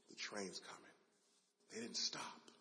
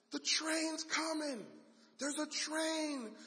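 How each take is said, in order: First: Soft, low, stunned; quiet dread. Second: High, slow alarmed shout; yelling. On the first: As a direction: say it to yourself in horror. Dad realizing disaster, quiet dread. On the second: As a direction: warn dad, urgent and drawn out. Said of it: "he starts yelling". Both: Acted.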